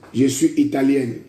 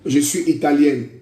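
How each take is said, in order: Both takes have the same delivery.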